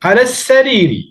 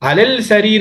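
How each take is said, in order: First: The L merges into a doubled S sound. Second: The L is pronounced before the S sound. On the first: The speaker calls it right. "ஏன் இந்த சீனுங்கிறது ஷம்ஷியாவுடைய எழுத்து" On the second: The speaker calls it wrong. "அலல் சரீர் என்று வாசிச்சா பிழை"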